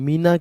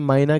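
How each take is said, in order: First: The first vowel sounds like 'ee'. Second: The first vowel sounds like 'eye'. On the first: "यानी कि मीना कह सकते हैं" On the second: "माइना कह सकते हैं आप उसे"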